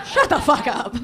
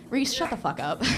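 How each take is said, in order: First: Higher, louder repeat of the retort; loud mock scolding. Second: Said in the usual way. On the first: Real, not acted. Comic to a friend who cheered the beach, loud scolding. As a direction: shout down the heckler for laughs.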